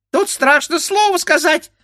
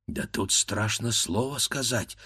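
First: Very high squeak; squeaky beak. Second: Softer frightened grumble; grumbling to himself. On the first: The bird beak mimicking the grandfather, squeaking. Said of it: "пискнул птичий нос". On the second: Scared grandfather grumbling to himself quietly. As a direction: mutter under your breath. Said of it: "проворчал он про себя". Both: A narrator's reading.

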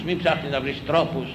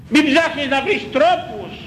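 First: Said in the usual way. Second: Μην cried high, words dragged out slowly; slow fervent warning. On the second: Real, not acted. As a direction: plead Μην ψάχνεις slowly and loud. (αργά, δυνατά, ψηλά στο Μην)

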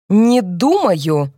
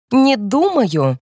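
First: Determined repeat. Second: Slow, drawn-out, stiff refusal; shrill brittle cut-in. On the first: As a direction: lay the words down like a final verdict. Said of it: "повторяет Эльза с решительным видом". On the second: Wife cuts in on her father-in-law, slow and stiff. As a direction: drag each word out like a cold wall. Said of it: "пронзительный и ломкий". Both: A narrator's reading.

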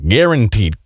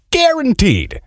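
First: Said in the usual way. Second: Guaranteed leapt up high and hammered; stress on guaranteed. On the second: Shown as a demonstration. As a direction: hit guaranteed hard, way up in pitch.

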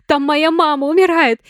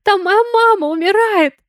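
First: High, loud, tearful accusation; accusing cry. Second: High, loud hysterical scream. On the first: Sonya screams at Lena that her mother is dying. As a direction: throw the blame at her. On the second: Sonya screams at Valentine about her dying mother. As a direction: scream it at him with everything. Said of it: "заорала уже на него Соня". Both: A narrator's reading.

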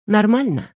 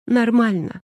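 First: Said in the usual way. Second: Sniffling. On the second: Acted. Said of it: "всхлипнула Наташа".

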